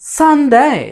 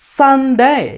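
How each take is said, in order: First: The first syllable is said with strong pressure. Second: The first syllable is said with strong pressure.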